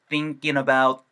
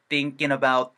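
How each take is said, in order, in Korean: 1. 어미가 'in'이 되어서 'about'에 이어져요. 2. 어미가 'in'이 되어서 'about'에 이어져요.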